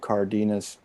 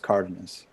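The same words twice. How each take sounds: First: The first syllable is not stressed. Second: The stress is on the first syllable. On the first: The speaker calls it wrong. "the natural tendency is to go to Cardenas" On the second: The speaker calls it right. "there's a written accent on the first syllable, so that's why it's Cardenas"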